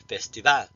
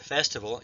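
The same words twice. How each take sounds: First: The stress falls on the last syllable. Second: The stress falls before the last syllable. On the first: This is the Spanish way of saying it. The speaker calls it right. "in Spanish, you would say ... why the accent is on the last syllable" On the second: This is the English way of saying it. The speaker calls it wrong. "instead of festival"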